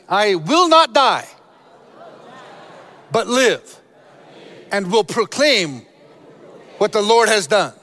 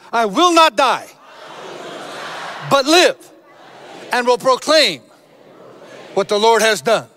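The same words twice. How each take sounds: First: It is said plainly, without special force. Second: It is said forcefully, with strong conviction.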